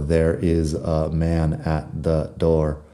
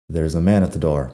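First: "There is" is said as two full words. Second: "There is" is contracted to "there's". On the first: The speaker calls it wrong. "sería raro pronunciarlo todo" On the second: The speaker calls it right. "Mucho más sencillo"

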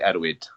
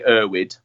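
First: The name is said with a Welsh pronunciation. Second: The name is said with an English pronunciation. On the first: "With a Welsh twang, it'd be Erwood" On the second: "for an English-speaking audience, it'd be Erwood"

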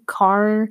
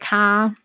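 First: The final r sound is clearly pronounced. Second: The final r sound is dropped. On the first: "you can kind of hear the proper way of pronouncing it" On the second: "if I'm talking fast or I'm, you know, just speaking lazily"

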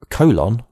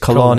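First: The word is pronounced like the English word colon. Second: The word is pronounced with Spanish sounds and stress. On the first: It is read as an English word. The speaker calls it wrong. "reading Spanish words in English" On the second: It is the Spanish name of a place. The speaker calls it right. "because I'm pronouncing them in Spanish"

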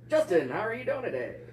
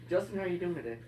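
First: It is said in an old-timey radio voice. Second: It is said in a normal speaking voice.

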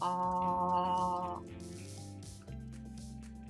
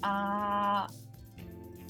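First: It is said at a lower pitch. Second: It is said at a higher pitch.

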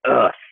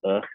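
First: It sounds sharp, annoyed and forceful. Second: It sounds slow, tired and deflated. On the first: The person is angry at being woken. "more like ugh, smack" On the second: The person is tired and slow to start. "more like slouched and sluggish and ugh"

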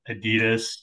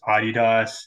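First: It is said with the American pronunciation. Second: It is said with the European pronunciation. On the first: "as we say in America" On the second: "That's the European pronunciation"

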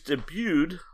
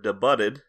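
First: The word has its usual everyday pronunciation. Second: The word is sounded out letter by letter.

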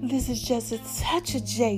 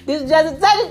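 First: It is said in a put-on deep, sultry voice. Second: It is said in her normal speaking voice.

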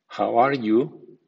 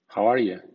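First: Every word is pronounced fully and carefully. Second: The words are reduced and run together. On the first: "primero en estilo formal" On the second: "a continuación en versión informal o coloquial"

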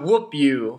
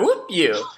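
First: It is said flatly, without enthusiasm. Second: It is said with lively enthusiasm.

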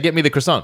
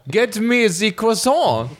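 First: It is spoken with a plain English accent. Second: It is spoken with a French accent. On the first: "But they don't. They say" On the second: "they should also be speaking French accents for everything else. Like"

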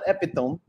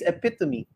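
First: The word is read the way it looks. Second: The word has its standard pronunciation. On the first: The speaker calls it wrong. "not epitome" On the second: The speaker calls it right. "it's epitome"

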